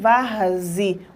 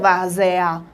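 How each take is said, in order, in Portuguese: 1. A vogal depois do z soa como 'i'. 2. A vogal depois do z soa como 'e'. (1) "Nós pronunciamos varzi. O E tem som de I" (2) "Ninguém pronuncia várzea"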